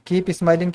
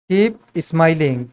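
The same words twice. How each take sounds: First: Said in the usual way. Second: Each word stretched out slowly for the class; slow dictation. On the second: Shown as a demonstration. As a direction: spell it out slowly: "Keep smiling" with long drawn vowels. ("Keep smiling" बहुत धीरे, खींचकर बोलें) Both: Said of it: "keep smiling क्या हो जाएगा".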